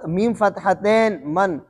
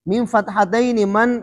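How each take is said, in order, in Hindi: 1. दूसरा शब्द -tain पर खत्म होता है, आखिर में कोई स्वर नहीं। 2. दूसरा शब्द -taini पर खत्म होता है, ai के साथ। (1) "मजहूल अदा करना शुरू कर दिया है" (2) "आम जो दूसरे अरब कंट्री है उसके अंदर"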